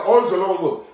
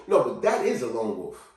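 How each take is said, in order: First: Higher mock excuse; scoffing imitation of others; mocking quote. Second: Settled, firm "that is"; firm rebuttal. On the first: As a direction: parrot a dismissive excuse. Mocking others' excuse, then rebutted. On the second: Real, not acted. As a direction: lower correction leaning on "is". Rebutting the mocked excuse.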